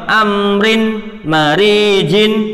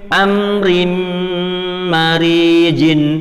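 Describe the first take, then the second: First: A short n sound links to marijin. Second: A held m sound merges into marijin. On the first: "aslinya kan cuma amrin marijin" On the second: "makanya ditahan dan masukkan huruf mim"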